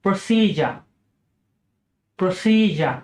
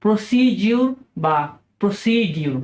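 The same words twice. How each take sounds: First: প্রসিজার as PRO-si-jer; correct pronunciation. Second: প্রসিডিউর said PRO-si-dyoor; common mispronunciation. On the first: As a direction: model প্রসিজার. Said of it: "সর্বশেষ শব্দটি হচ্ছে". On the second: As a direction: demo the usual error. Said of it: "আমরা হয়তো বলে থাকি". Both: Shown as a demonstration.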